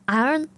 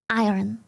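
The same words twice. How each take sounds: First: The R sound is left out. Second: The R sound is clearly pronounced. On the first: "You don't really do the R" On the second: "I keep saying iron"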